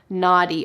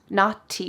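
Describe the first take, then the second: First: The middle consonant sounds like a soft D. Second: The middle consonant is a clear T. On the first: "But in American English, we would say naughty" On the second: "with a clear T sound"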